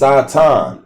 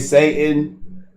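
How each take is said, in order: First: It is said with the Hebrew pronunciation. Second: It is said with the common English pronunciation. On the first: This is the original form of the word. The speaker calls it right. "The Hebrew word is Satan" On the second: This is how people commonly say it. The speaker calls it wrong. "That word that they say Satan. That's a different pronunciation"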